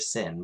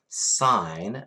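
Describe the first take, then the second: First: It has a short vowel, like 'sin'. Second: It has a long vowel, like 'sign'. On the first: The speaker calls it wrong. "so never ever sin" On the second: The speaker calls it right. "they stand for sign"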